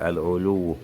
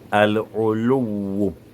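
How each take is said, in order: First: The w sound is short, not doubled. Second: The w sound is held and doubled. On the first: The speaker calls it wrong. "sans bien mettre le shadda sur Waoun" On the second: The speaker calls it right. "Je reprends la prononciation"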